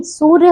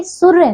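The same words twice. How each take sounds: First: सूर्य with a long oo; correct long vowel. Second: सूर्य with a short u; wrong short vowel. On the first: Teacher correcting pupils, सूर्य with long oo. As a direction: say सूर्य as "soorya". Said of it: "सूर्य होता है बच्चों". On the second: Teacher showing pupils the error, सूर्य with short u. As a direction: say सूर्य as "surya", u kept short. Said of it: "सूर्य नहीं". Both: Shown as a demonstration.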